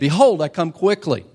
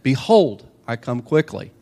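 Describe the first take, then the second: First: It is said with somewhat more excitement. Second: It is said calmly, with low energy.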